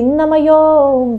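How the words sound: The phrase is said in a Bengali accent. The speaker calls it wrong. "or the Bengalis, they say"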